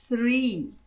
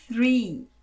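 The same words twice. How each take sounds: The two takes are said the same way.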